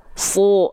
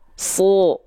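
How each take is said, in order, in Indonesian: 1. Vokalnya seperti O tebal. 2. Vokalnya seperti O tebal.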